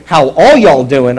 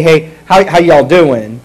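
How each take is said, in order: First: Loud, slow Texan hello, leaning on ALL; Texan greeting to a whole family, stretching "all"; Texan plural greeting. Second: Loud, casual Southern hello; Southern greeting. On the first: Pastor asking after your whole family, Texan plural greeting. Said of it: "your whole family when I say". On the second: Pastor showing singular y'all, casual Southern greeting. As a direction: greet one person with a Southern "how y'all doing". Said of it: "That's a Southern thing". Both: Shown as a demonstration.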